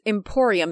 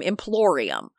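First: The word starts with 'em' and has no L. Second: The word starts with 'im' and has an L. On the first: The speaker calls it right. "look at my sister who pronounces Emporium" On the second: The speaker calls it wrong.

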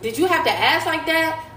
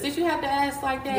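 First: It is said sharply, in a harsh tone. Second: It is said lightly, in a joking tone. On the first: The complaint feels like an attack. The speaker calls it wrong. "but the tone, like" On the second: The complaint is raised in a friendly, joking way. The speaker calls it right. "we could have laughed about it. Like, it could have been like, sis"

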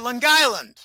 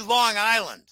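First: It is said in a local Long Island accent. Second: It is said in a standard, neutral accent. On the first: This is how the locals say it. "They say Long Island" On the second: This is not how the locals say it. "They don't say Long Island"

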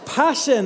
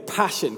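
First: It is said with strong energy. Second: It is said calmly, with little energy.

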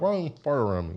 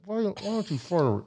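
First: It is said with the jaw moving normally. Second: It is said through clenched, unmoving teeth.

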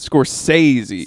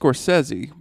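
First: One part of the name is heavily overemphasized. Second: The name is said with normal, even emphasis. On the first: The speaker calls it wrong. "you specifically doubled down on the wrong part" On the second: The speaker calls it right. "his name is Scorsese"

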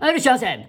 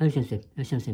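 First: The greeting is said loudly with lots of energy. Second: The greeting is said weakly with little energy.

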